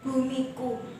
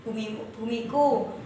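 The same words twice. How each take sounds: First: Said in the usual way. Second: "bumiku" said low and soft, sorrowful; sad poem reading. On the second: Shown as a demonstration. Teacher shows the class a sad expression for "bumiku". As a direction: read "bumiku" with a touch of sadness. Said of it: "Jadi agak sedih".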